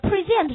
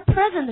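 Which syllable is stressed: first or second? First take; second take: second; first. First: The stress is on the second syllable. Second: The stress is on the first syllable. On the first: It is the verb. "动词" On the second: It is the noun meaning a gift. "名词"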